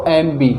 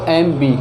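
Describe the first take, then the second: The two takes are said the same way.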